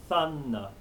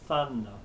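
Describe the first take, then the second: No difference in how they are said.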